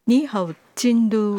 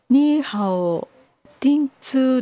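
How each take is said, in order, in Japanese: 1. 地名は chindu のように言います。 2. 地名は tintsu のように言います。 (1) "京都はチンドゥですね。" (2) "これは発音がニーハオティンツーだとずっと思ってたんですが、ちょっと違うんじゃないでしょうか。"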